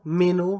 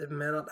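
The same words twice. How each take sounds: First: "meno" ending on an open oh; silent final t. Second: Said in the usual way. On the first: Shown as a demonstration. Showing how the candidate is pronounced, "meno" ending on oh. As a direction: say "meno" with no t at the end. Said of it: "this is pronounced like". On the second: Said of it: "I mean, this is pronounced like".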